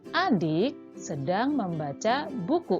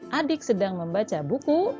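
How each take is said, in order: First: The voice falls at the end. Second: The voice rises at the end. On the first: The sentence is finished. "itu intonasinya akan turun" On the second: The sentence is not finished yet. "intonasinya naik"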